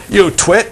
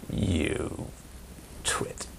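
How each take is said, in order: First: Higher, louder taunting jab; sling the insult playfully; mock insult. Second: A low, hushed, breathy jab of an insult; muttered insult. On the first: Someone insults you, lightly hammed-up taunt. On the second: Retold or imitated. Someone mutters an insult at you, hushed. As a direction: toss the insult under your breath.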